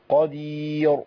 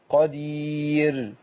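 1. الراء في الآخر مفخَّمة، مع استدارة الشفتين. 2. الراء في الآخر مرقَّقة، مع انفراج الشفتين. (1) "معظم إخواننا اللي بيفخموا الراء بيعملوا كده" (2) "نفس الهيئة اللي بجيب فيها الياء هي هيئة الراء"

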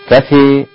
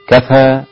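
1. تميل الحركة الأخيرة بقوة نحو الياء. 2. الحركة الأخيرة فتحة صريحة. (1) "الإمالة" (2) "هذا الفتح"

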